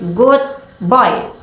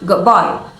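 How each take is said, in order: First: The D in good sounds like a D. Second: The D in good sounds like a B. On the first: "if you say the phrase good boy quickly" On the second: "so it sounds like good boy"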